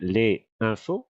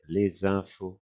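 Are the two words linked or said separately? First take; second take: separate; linked. First: The two words are said without a linking sound. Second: The two words are joined with a linking sound. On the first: The speaker calls it wrong. "we don't say les infos" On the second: The speaker calls it right. "we say les infos, huh, with a, a little link here"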